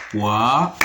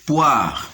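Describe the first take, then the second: First: "Poire" split as poi-re, first part rising; syllable by syllable. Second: Said in the usual way. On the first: Shown as a demonstration. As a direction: detach the final "re" of "Poire" after a pause. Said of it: "se compose de deux syllabes". (« Poire » découpé : poi… re)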